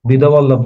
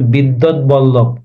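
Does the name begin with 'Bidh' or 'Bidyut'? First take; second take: Bidh; Bidyut. First: The first part is said as short 'bidh'. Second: The first part is said as full 'bidyut'. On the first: The speaker calls it wrong. "বিধবল্লভ না" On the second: The speaker calls it right. "এটা উচ্চারণ হবে বিদ্যৎ বল্লভ"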